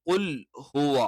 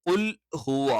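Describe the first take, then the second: The two takes are said the same way.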